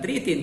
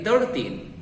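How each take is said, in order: First: The first part sounds like 'three'. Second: The first part sounds like 'thir'. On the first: The speaker calls it wrong. "bukan thirteen" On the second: The speaker calls it right. "tapi thirteen"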